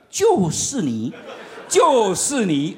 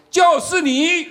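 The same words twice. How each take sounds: First: Inner voice. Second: 高声点名，像指挥官在台上一指; 突然提高音量，指着人喊出来; commander's call. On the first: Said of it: "又有一种声音又出现了". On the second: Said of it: "指挥官突然说". (指挥官在台上当众点名，大声喊出) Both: Retold or imitated.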